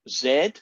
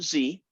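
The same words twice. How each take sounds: First: The letter is said with a non-American accent. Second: The letter is said with an American accent. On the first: The speaker calls it right. "it's Z ... That's the proper pronunciations" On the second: The speaker calls it wrong. "not Z"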